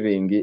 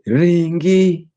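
First: The word is said in a relaxed, casual way. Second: The word is said in an urgent, intense way. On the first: The request to run is not pressing. "it's casual" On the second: The request to run is pressing. "it's urgent"

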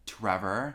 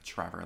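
First: The name starts with a crisp, clear T sound. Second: The name starts with a CH-like sound. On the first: "really enunciating the T" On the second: "like with the C-H"

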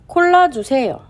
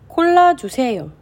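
Both takes have the same delivery.

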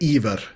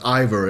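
First: The name is pronounced the Norwegian way. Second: The name is pronounced the English way. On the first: "I would say Iver in Norwegian" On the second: "but Iver is also quite fine"

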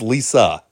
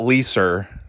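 First: The name ends in a plain vowel. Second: The name ends with an added R sound. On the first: The speaker calls it right. "you don't actually pronounce the R" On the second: The speaker calls it wrong. "Her name's not"

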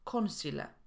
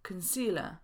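First: The first vowel is a full o sound. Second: The first vowel is a reduced schwa. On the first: The speaker calls it wrong. "a nie concealer" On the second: The speaker calls it right. "I mówimy concealer"

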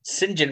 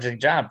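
First: The name is contracted to two syllables, 'Sinjin'. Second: The name is said in full as 'Saint John'.

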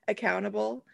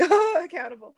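First: It is said plainly, as an ordinary word. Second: It is said mockingly, as if impressed.

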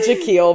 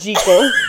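First: The first syllable is 'jeck', rhyming with speckle. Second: The first syllable is 'jee', rhyming with seagull. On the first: The speaker calls it wrong. "not Jekyll" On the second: The speaker calls it right. "The proper way to say this Scottish last name is really Jekyll"

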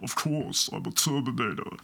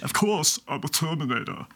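First: The voice is pitched very low and deep. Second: The voice is at an ordinary impression pitch.

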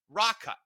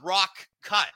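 First: The two words are run together as one. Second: The two words are said as separate words. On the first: The speaker calls it right. "We combine the two words" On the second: The speaker calls it wrong. "It's not rock cut"

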